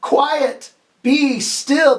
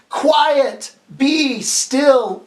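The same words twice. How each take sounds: First: Louder, firm call-and-response; teacher urging the class to say it louder; louder command. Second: Higher, firm command; teacher leading the class in a firm command; commanding call. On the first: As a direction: say it louder with the kids. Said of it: "Say it again louder". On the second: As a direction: lead the kids in saying it. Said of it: "can you say that with me". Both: Shown as a demonstration.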